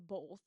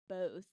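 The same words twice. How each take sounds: First: The word has an added L sound. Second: The word has no L sound in it. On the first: The speaker calls it wrong. "like you add a L" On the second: The speaker calls it right. "it's supposed to be both"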